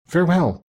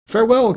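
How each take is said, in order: First: Small, high fairy voice; a raised, lilting goodbye from a fairy queen; fairy farewell. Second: Much higher, excited prince's call; crying out. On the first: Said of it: "talking in a small, high voice like a little girl". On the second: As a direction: call it out high, in a prince's fervent goodbye. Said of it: "cried the prince". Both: A narrator's reading.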